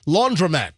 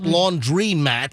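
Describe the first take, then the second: First: The second syllable is said as 'dro'. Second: The second syllable is said as 'dree'. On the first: The speaker calls it right. "it's a laundro laundromat" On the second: The speaker calls it wrong. "not laundry mat"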